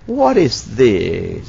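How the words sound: The pitch falls at the end. The speaker calls it right. "Tetapi yang benar diakhiri dengan turun"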